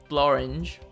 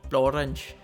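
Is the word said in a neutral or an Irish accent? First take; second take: neutral; Irish. First: It is said in the speaker's ordinary accent. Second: It is said in an Irish accent.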